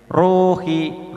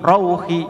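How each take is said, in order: First: "Ruhi" high, the u held long; ru panjang. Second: "rauhi" high, short rau ending in u; tidak memanjang. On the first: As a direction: stretch the RU of "Ruhi". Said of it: "dibaca panjang". ("Ruhi" dengan ru dipanjangkan) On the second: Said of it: "ndak boleh memanjang". ("rauhi" dibaca pendek, tidak memanjang) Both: Shown as a demonstration.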